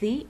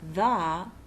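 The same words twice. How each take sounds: First: The word is said like 'thee'. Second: The word is said like 'thuh'. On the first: "It comes before a word that begins with a vowel" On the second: "The second pronunciation, the, is used before all words that begin with a consonant"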